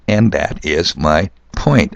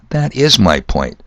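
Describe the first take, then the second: First: Slow, drawn-out emphasis on "point"; "point" stressed at the end of a slow sentence. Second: Said in the usual way. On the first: Shown as a demonstration. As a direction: lean hard on the word "point", taking it slowly. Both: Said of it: "I'm stressing the word point".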